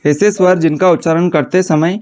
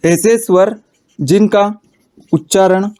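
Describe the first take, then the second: First: Said in the usual way. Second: ऐसे स्वर, जिनका, उच्चारण each said alone with long pauses; word by word dictation. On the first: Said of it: "same phrase said in one run". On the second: Shown as a demonstration. Teacher dictating to students, slow word-by-word pauses. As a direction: spell out ऐसे स्वर जिनका उच्चारण slowly for note-taking. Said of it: "dictating word by word to class".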